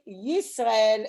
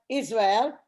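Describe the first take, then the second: First: The name begins with a y sound. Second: The name begins with no y sound. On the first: The speaker calls it right. "it should be Yisrael because it's with a Yud" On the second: The speaker calls it wrong. "I really don't like it that it's Israel"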